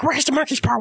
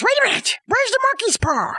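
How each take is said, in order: First: Lightly voiced husband, near usual pitch; husband searching. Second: High-pitched wife with a sudden idea; sudden mock alarm. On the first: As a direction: ask it as the searching husband, restrained. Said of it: "and he's like". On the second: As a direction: burst out urgently, voicing the wife. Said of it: "the wife one night goes".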